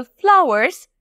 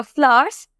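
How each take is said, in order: First: ফ্লাওয়ার্স in two syllables, "flau-erz"; full "wer" sound inside ফ্লাওয়ার্স; US pronunciation. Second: ফ্লাওয়ার্স smoothed to one syllable, "flahz"; no r or w sound in ফ্লাওয়ার্স; UK pronunciation. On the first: Teacher telling learners either form is fine, US pronunciation. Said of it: "সেটা ভুল নয়". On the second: Teacher offering the other accepted form, UK pronunciation. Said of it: "সেটাও ভুল নয়". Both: Shown as a demonstration.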